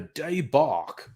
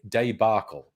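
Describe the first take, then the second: First: It is said with a French-style pronunciation. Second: It is said with a plain English pronunciation.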